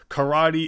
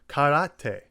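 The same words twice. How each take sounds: First: The vowels are blended with an English stress pattern. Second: Each vowel is said separately and distinctly. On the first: "unlike in English where it's karate" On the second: "the Japanese pronunciations"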